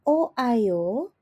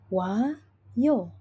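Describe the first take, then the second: First: The two vowels are said as separate syllables. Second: The two vowels merge into one syllable. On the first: The speaker calls it wrong. "tidak akan berbunyi sebagai o ayo" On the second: The speaker calls it right. "langsung berbunyi sebagai wayo"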